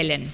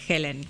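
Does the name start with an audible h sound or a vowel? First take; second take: vowel; h sound. First: The name starts directly with a vowel sound. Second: The name starts with an audible h sound. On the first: This is how most people say the name. "la mayoría me dice Ellen" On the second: This is the name's proper form because it is spelled with H. "es Helen. Porque tiene la H"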